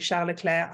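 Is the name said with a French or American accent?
French. The name is said with a French accent.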